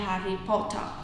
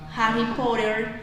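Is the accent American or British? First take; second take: British; American. First: It is said in a British accent. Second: It is said in an American accent. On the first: "que es en británico" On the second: "que es en americano"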